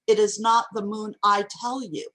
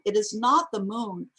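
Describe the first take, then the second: First: "It is not the moon, I tell you" said firmly, with "I tell you" added as insistence; emphatic assertion. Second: Said in the usual way. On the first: Shown as a demonstration. Lecturer comparing two versions of the line, emphatic assertion. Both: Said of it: "is not as strong as".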